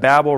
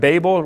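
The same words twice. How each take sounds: First: The first vowel is a short A, as in dabble. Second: The first vowel is a long A, as in table. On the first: "rhyming with dabble" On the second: "like rhyming with table"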